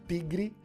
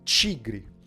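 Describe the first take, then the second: First: It begins with a plain 't' sound. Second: It begins with a 'ch' sound. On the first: The speaker calls it wrong. "Não é tigre" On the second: The speaker calls it right. "é tigre. Ele vira de T para Ch"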